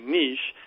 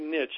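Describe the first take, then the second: First: It is said the British UK way. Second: It is said the Colorado American way.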